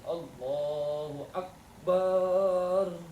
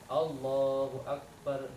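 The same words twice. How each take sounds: First: The last vowel of Akbar is drawn out long. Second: The last vowel of Akbar is short. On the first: The speaker calls it wrong. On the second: The speaker calls it right.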